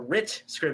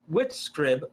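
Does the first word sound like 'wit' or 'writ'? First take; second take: writ; wit. First: The first word is said with an r sound. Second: The first word is said without an r sound. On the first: The speaker calls it right. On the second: The speaker calls it wrong.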